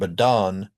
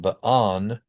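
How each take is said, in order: First: The middle T is a quick flap. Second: The middle T is a glottal stop. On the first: "not possible words of English" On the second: "not possible words of English"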